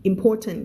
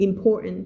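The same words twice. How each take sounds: First: "important" with the middle t sounded; T pronounced. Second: "important" with the middle t swallowed, impor'nt; US pronunciation, T dropped. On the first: Teacher giving the alternative, "important" with a clear middle t. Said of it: "important ก็ได้ important ภาษา อืม ยูเอส". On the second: Teacher showing US English, "important" without its middle t. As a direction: swallow the t in "important", American style. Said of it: "T จะหายนะคะ". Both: Shown as a demonstration.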